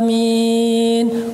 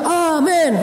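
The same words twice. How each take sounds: First: The word is said slowly and drawn out. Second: The word is said quickly and clipped. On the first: The worshippers are still beginners. "Kok pelan banget sih?" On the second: The worshippers are experienced. "terus makmumnya juga pro"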